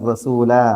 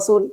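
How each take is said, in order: First: The word ends with a lengthened a vowel. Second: The word ends on the final consonant. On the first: This is how it is recited in scripture to keep the rhyme. "വിശുദ്ധ ഖുർആൻ ഓതുമ്പോ ... അങ്ങനെ ഓതും" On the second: This is how it is read in ordinary literary text. "ഒരു സാഹിത്യ പുസ്തകത്തിൽ ... അങ്ങനെ വായിക്കുക"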